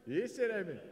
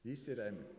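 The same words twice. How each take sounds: First: Delighted loud repeat to the crowd; louder repeat. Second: Said in the usual way. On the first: Real, not acted. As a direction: call it out again, pleased.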